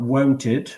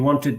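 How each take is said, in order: First: The first syllable sounds like 'won't'. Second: The first syllable sounds like 'want'. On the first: The speaker calls it wrong. "it's not wonted" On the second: The speaker calls it right. "it's want"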